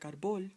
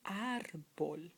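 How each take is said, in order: First: "árbol" said ar-BOL; wrong final stress. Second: "árbol" said AR-bol, the first syllable drawn out; stress on first syllable. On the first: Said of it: "not to pronounce it like árbol". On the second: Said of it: "accent mark so you can say". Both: Shown as a demonstration.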